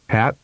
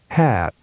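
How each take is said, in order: First: The vowel is held briefly. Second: The vowel is prolonged. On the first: "with a short vowel duration first" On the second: "and then with a longer duration"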